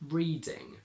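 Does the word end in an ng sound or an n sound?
ng. The word ends with an ng sound.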